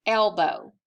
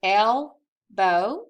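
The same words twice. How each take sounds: First: Said in the usual way. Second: "Elbow" as two loud beats, pause between; split into syllables. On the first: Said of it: "What is this word?". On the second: Shown as a demonstration. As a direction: say "Elbow" syllable by syllable, rising at the end. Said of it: "think about how many syllables it has".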